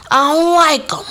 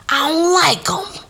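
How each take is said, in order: First: High and louder, firm declaration. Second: High whispered aside, words unvoiced. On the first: Telling the audience her dislike, said higher and louder. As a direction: say it out loud this time, no hiding. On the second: Telling the audience her dislike in a high whisper. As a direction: whisper it like a secret grudge. Venting about stepmom's friend's family. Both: Real, not acted.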